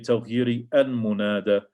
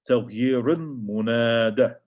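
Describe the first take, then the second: First: A separate i vowel ends taghyir before al-munada. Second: The r of taghyir runs straight into the l. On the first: The speaker calls it wrong. "you don't say" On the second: The speaker calls it right. "raw connects with the sound of the lam"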